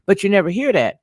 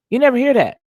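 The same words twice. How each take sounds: First: Said in the usual way. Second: "never" hit high and loud; emphatic repeat, stress on never. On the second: Real, not acted. Repeats the phrase, much more forcefully.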